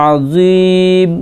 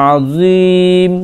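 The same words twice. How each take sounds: No difference in how they are said.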